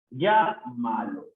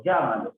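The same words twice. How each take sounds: First: "Llámalo" slow, pausing after "Llá"; broken after first syllable. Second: Said in the usual way. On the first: Shown as a demonstration. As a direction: hit "Llá", pause, then finish "Llámalo". Teacher breaks word up. (marcando la primera sílaba, despacio)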